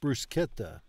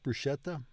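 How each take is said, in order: First: The ch is a hard k sound. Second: The ch is a soft sound. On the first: The speaker calls it right. "CHI is pronounced KI" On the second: The speaker calls it wrong. "It's not bruschetta"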